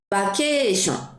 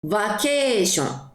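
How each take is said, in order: First: The word begins with a b sound. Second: The word begins with a v sound.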